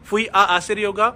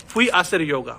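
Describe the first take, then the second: First: Slowly, with both आ sounded in "फुई आ आसिर yoga"; separated vowels. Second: "फुई आसिर yoga" with just one आ; linked vowels. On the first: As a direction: keep आ apart from आसिर. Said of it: "आ वाला, वो गायब कर दूंगा". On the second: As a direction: glide from फुई straight into आसिर. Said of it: "सिर्फ ए के sound लूंगा". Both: Shown as a demonstration.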